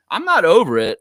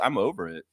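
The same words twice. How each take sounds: First: Loud, higher punch on "not" in "I'm not over it"; emphatic rebuttal. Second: Said in the usual way. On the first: Real, not acted. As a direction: push back hard, hitting "not" high and loud. Rebuts the comment just read.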